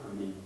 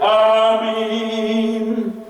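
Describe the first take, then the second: First: The word is said short, without stretching. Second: The word is stretched and prolonged.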